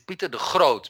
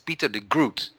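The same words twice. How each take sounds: First: It has a guttural G and long O. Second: It is read the English way, oo as u.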